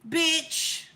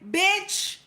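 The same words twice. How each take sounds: First: It sounds friendly and easygoing. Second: It sounds teasing and playful.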